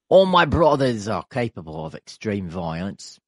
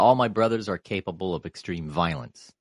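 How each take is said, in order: First: It is said in an Australian accent. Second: It is said in the speaker's plain accent.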